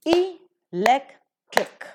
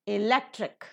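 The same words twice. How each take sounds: First: Electric very slowly, broken into e-lec-tric; syllable by syllable. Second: Electric as one word, accented on LEC; stress on LEC. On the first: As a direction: separate the three syllables of electric, higher and louder. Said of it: "trisyllabic word it is". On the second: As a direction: model e-LEC-tric with weight on the second syllable. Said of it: "la is given the stress". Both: Shown as a demonstration.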